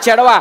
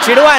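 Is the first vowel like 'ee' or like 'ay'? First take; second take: ay; ee. First: The first vowel is an 'e' sound. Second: The first vowel is a short 'i' sound. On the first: The speaker calls it right. "गो चेडवा चेडवा" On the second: The speaker calls it wrong. "चिडवा नाही"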